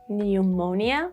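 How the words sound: It is said with a British accent.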